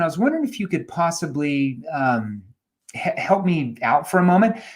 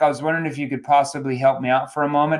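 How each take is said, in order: First: The voice sounds loose, relaxed and animated. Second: The voice sounds stiff, rigid and flat. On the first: The caller is at ease and engaging. The speaker calls it right. "Use your body language and you do that" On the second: The caller is tense and unengaging. The speaker calls it wrong. "I'm stiff like a board"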